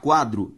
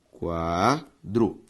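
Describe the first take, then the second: First: Said in the usual way. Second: "quadro" in two drawn-out parts, qua... dro; syllable by syllable. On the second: Shown as a demonstration. Teacher separating syllables for the class, syllable by syllable. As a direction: say "quadro" slowly, pausing between qua and dro. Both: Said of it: "Ao separar quadro".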